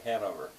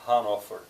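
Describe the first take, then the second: First: The name has the English pronunciation. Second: The name has the German pronunciation.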